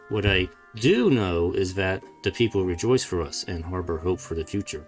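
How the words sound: The word 'do' is clearly emphasized.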